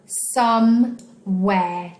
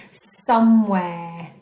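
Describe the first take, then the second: First: "Somewhere" as some, pause, where; very slow, syllable-by-syllable "Somewhere"; split into syllables. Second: Said in the usual way. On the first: Shown as a demonstration. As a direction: break "Somewhere" into two slow, separate beats. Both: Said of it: "Which of these words has two syllables".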